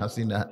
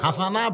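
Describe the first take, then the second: First: The second vowel is an 'i' sound. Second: The second vowel is an 'a' sound. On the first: The speaker calls it wrong. "বলতিছে হাসিনা" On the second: The speaker calls it right. "আসলে বলা লাগবে হাসানা"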